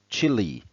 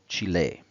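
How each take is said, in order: First: It is said like the word chilly. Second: It is said with two syllables, chee-leh. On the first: "the English pronunciation is literally Chile, like in Red Hot Chili Peppers" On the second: "in the language of the country, Spanish, such as in German, it's called Chile"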